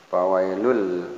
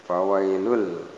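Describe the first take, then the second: No difference in how they are said.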